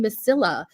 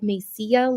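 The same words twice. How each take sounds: First: The double L is said as an L sound. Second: The double L is said as a Y sound. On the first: The speaker calls it wrong. "there's two L's at the end" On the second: The speaker calls it right. "like tortilla"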